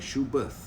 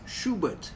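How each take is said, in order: First: The word ends with a 'th' sound. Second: The word ends with a plain 't' sound. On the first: This is how people say it in America. The speaker calls it wrong. "people like to call it Schubert because the spelling is B E R T H" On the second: This is how Germans say it. The speaker calls it right. "the German pronunciation for Schubert is Schubert"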